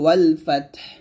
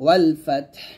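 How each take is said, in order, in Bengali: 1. শেষ শব্দটি একটি সাকিন ব্যঞ্জন দিয়ে শেষ হয়। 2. শেষ শব্দটি একটি সাকিন ব্যঞ্জন দিয়ে শেষ হয়।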